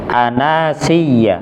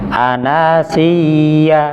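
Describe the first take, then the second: First: The doubled ya sound is pressed briefly, not held. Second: The doubled ya sound is held before release. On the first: The speaker calls it right. "maka tidak ditahan, cukup ditekan saja" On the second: The speaker calls it wrong. "ya-nya ditahan. Nah, itu salah"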